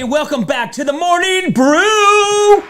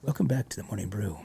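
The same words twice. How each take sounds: First: It is said loudly with over-the-top energy. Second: It is said softly in a very mellow way.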